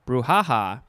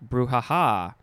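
First: The stress is on the middle syllable. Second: The stress is on the last syllable. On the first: "or you can emphasize the first ha" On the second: "You can emphasize the second ha first"

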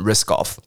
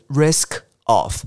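First: The two words run together as one unit. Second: The two words are said separately and clearly. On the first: "我们会把它连起来念成risk of" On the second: "原本是risk of"

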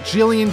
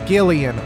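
First: The name begins with a soft J sound. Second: The name begins with a hard G sound. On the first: The speaker calls it wrong. "Not Gillian Jacobs" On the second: The speaker calls it right. "like GIF"

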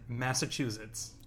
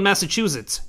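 First: The ending is softened, not a hard 'zits'. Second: The ending sounds like a hard 'zits'. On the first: "You're softening it now" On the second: "What was I saying wrong? ... The first few takes were a real hard zits"

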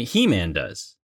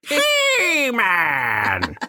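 First: It is said in his normal voice. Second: It is said in a Skeletor impression voice.

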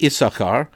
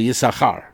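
First: The stress falls on the first syllable. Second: The stress falls on the second syllable. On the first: This is the English pronunciation of the name. "In English, we say, I think, Issachar" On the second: This is the Hebrew pronunciation of the name. "and in Hebrew, we say Issachar"

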